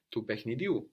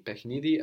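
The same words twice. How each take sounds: First: Tu pechnidiu with last U stressed; stress on final U. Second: Pechnidi with NI stressed. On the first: Teacher contrasts two forms, final u stressed in pechnidiu. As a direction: move the accent to the end of pechnidiu. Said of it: "takes the accent on the end". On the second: Teacher contrasts two forms, accent on NI in pechnidi. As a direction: hit the middle syllable ni in pechnidi. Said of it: "with the accent on ni". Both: Shown as a demonstration.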